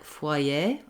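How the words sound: It is said with a French accent. "In French, it's more like foyer"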